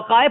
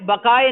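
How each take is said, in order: First: The word starts with a 'w' sound. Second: The word starts with a 'b' sound. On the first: The speaker calls it wrong. "वकाए पढ़ रहा था" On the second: The speaker calls it right. "बकाए बकाए नवई को"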